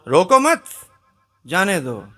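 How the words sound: The pause comes right after 'mat'.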